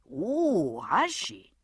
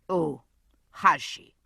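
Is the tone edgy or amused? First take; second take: amused; edgy. First: It sounds amused and softened. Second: It sounds edgy and irritated.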